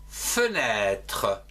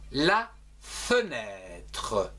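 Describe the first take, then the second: First: Said in the usual way. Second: Slow careful demo. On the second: Shown as a demonstration. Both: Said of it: "dans le mot".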